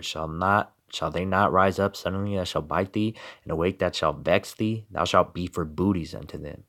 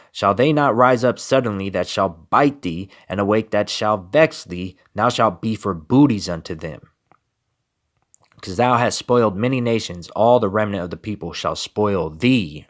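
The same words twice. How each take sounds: First: Softer, hushed recital of the same verse; subdued solemn reading; quiet scripture reading. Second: Firm, slightly raised preaching recital; forceful scripture reading. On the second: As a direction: declaim the prophecy as a warning. Reads scripture louder. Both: Acted.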